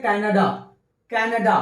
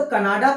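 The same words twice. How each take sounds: First: कनाडा with the stress on the first syllable and a weak schwa at the end; English Canada. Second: कनाडा with a full Hindi a at the end; Hindi way Kanada. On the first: Teacher models the English pronunciation, stress on the first syllable. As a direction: say कनाडा as KE-nə-da, the last vowel light. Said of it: "क के ऊपर stress होता है". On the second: Teacher shows the Hindi reading, Hindi-style Kanada. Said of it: "लेकिन English pronunciation कनाडा". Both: Shown as a demonstration.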